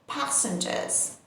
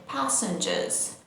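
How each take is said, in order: First: The R sound is left out. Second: The same.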